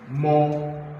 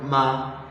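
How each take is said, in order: First: The vowel is a rounded 'aw' sound. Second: The vowel is an open 'ah' sound. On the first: The speaker calls it right. "the full spelling is M A W, more" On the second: The speaker calls it wrong. "not ma"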